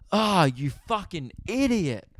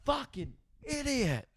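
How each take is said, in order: First: Drawn-out mock yell at the idiot; mild exasperated shout; retold yell. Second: High, soft, slow mock yell; replaying his own outburst in a high hushed voice. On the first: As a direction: call him an idiot, slow and half-shouted. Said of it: "And I yell". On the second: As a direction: squeak out what mum overheard. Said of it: "all she's heard is me go".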